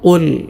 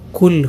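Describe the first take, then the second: First: It begins with a deep q from the throat. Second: It begins with a plain front k sound. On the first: The speaker calls it right. "ഇങ്ങനെ തന്നെ ഉച്ചരിക്കണം" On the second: The speaker calls it wrong. "ഖാഫിന് പകരം കാഫായി പോകാൻ ... പലരും അങ്ങനെ ഓതാറുണ്ട്"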